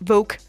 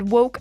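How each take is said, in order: First: The word begins with a V sound. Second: The word begins with a W sound. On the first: The speaker calls it wrong. "skal ikke udtales woke" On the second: The speaker calls it right. "woke er jo med W"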